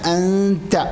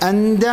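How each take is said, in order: First: The t sound is articulated precisely. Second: The t sound is articulated loosely. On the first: The speaker calls it right. "ആ തായിൻ്റെ മഖ്റജ് അല്പം കൂടി ശരിയാക്കുക" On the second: The speaker calls it wrong. "അന്ത എന്ന് പറയാൻ പാടില്ല"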